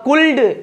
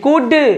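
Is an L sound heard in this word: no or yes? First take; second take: yes; no. First: An L sound is pronounced before the final D. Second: No L sound is pronounced before the final D. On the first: The speaker calls it wrong. "मैं बोलता था कुल्ड" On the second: The speaker calls it right. "ये जो pronunciation है बिल्कुल गलत है, यानी कुड"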